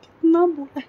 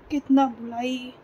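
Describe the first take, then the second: First: High, loud, cracking cry of real grief; the words burst out through tears, much higher and louder; voice breaking with grief. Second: Said in the usual way. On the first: Real, not acted. Recalling her dead mother, a daughter breaks down in real tears.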